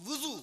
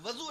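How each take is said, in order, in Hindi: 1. पहला स्वर 'u' है, जैसे wuzu में। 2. पहला स्वर 'a' है, जैसे wazu में। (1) "वुज़ू करने जा रहा हूँ" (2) "वज़ू नहीं"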